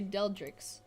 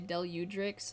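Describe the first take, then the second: First: The name has two syllables, dropping the u vowel. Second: The name has three syllables, with the u vowel. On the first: The speaker calls it wrong. "I say Deldrix. I always forget there's a U" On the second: The speaker calls it right. "some people say Deludrix"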